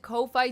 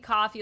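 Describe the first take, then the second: First: It is said as two separate syllables, co-fee. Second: It is said exactly like the drink coffee. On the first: "I always pronounce it Ko-Fi" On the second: "it is supposed to be coffee, like, buy me a coffee"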